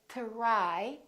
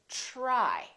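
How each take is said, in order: First: It begins with a plain, separate t sound. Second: It begins with a soft ch-like sound. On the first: The speaker calls it wrong. "we don't say try" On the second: The speaker calls it right. "It becomes like a ch sound"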